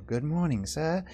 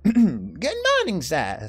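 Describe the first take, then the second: First: It is said in the speaker's ordinary voice. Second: It is said in a put-on character voice.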